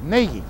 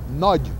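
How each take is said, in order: First: The name is said the English way. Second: The name is said the Hungarian way. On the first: "he's the only one that was, was pronouncing his name correctly" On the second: "if you pronounce it Hungarian, in Hungarian it's, it's pronounced"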